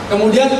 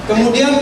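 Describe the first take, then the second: Both takes have the same delivery.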